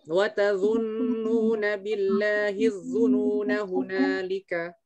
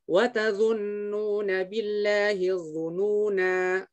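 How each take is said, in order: First: The final vowel is short, running straight on. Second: The final vowel is long, then the voice stops. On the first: The reciter continues into the next verse. "tapi nanya dibacanya pendek" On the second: The reciter pauses at the end of the verse. "Berarti nanya panjang kalau kita mau berhenti"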